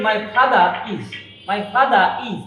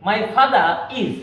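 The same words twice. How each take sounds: First: Father is with no R, fatha-is; teacher shows the wrong way, R left out; wrong, R dropped. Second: Father is as fatharis, R sounded, very slow; teacher models the correct linking R slowly; R clearly linked. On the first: Teacher to students, demoing the wrong dropped-R version. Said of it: "তাহলে হবে না". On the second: Teacher to students, slowly modelling the correct linking R. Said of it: "আরটা খুব স্পষ্টভাবে উচ্চারণ করতে হবে". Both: Shown as a demonstration.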